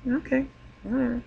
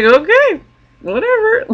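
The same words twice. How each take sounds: First: High, soft, light okay whatever; quiet dismissive aside; soft shrug. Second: High, airy okay whatever in a put-on voice; sing-song dismissal of the hugging guy; mock dismissive. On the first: Real, not acted. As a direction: let it go under your breath. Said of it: "I don't mind if he wants to hug me". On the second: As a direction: brush it off with a breezy shrug. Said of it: "I was like".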